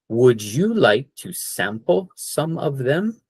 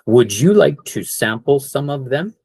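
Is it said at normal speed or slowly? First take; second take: slowly; normal speed. First: It is said slowly. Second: It is said at normal speed.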